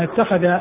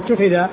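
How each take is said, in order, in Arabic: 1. الفعل مضبوط هكذا: ittakhadha 2. الفعل مضبوط هكذا: uttukhidha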